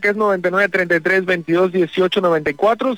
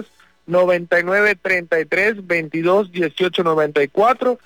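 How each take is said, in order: First: The number is said at normal speed. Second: The number is said more slowly.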